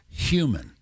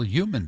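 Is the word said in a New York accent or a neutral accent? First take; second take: neutral; New York. First: The word is said in a neutral accent. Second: The word is said in a New York accent. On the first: The speaker calls it right. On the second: The speaker calls it wrong.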